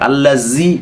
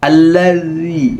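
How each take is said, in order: First: The middle consonant is a z sound. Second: The middle consonant is a th sound. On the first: The speaker calls it wrong. "এভাবে পড়ে এটা হবে না" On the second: The speaker calls it right. "এই যে জিহ্বাটা এখানে লাগাতে হবে"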